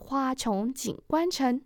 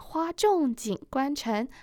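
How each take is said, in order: First: 重 is read chóng, with a rising tone. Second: 重 is read zhòng, with a falling tone. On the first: Flowers bloom over and over across the city. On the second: The flowers are heavy with rain.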